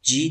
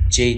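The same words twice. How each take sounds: First: "جی" with a long ee vowel, as G; G pronounced "jee". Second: "جی" with a long ay vowel, as J; J pronounced "jay". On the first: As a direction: say "جی" as "jee", rhyming with see. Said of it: "ای باید جی تلفظ شه در انگلیسی". (تلفظ «جی» با صدای کشیدهٔ «ای») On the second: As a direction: say "جی" as "jay", rhyming with day. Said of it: "ای باید جی تلفظ شه". (تلفظ «جی» به صورت «جِی») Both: Shown as a demonstration.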